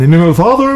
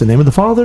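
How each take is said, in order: First: It is said a little louder. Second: It is said at normal volume.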